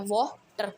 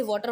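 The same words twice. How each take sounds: First: "water" in two separate parts, "वा - टर"; split into syllables. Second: Said in the usual way. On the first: Shown as a demonstration. Teacher showing a bisyllabic word, "water" said as two chunks. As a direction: break "water" after the first syllable, lower. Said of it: "parts में हिस्से टूटे हो". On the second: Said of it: "बाइसिलेबिक जैसे".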